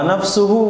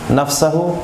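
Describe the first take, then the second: First: The second vowel is a 'u' sound. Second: The second vowel is an 'a' sound. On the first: The speaker calls it wrong. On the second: The speaker calls it right.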